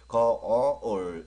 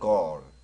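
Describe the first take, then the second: First: The word is said slowly, drawn into two parts. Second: The word is said quickly, as one short syllable. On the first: "거울 이렇게 발음해 주셔야 되는데" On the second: "빨리 말하면"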